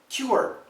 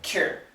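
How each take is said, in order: First: It is said carefully with a full vowel glide. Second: It is said quickly as one reduced syllable. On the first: "what is the proper pronunciation of this word? Most Americans will say cure" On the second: "One syllable, basically K Y E R"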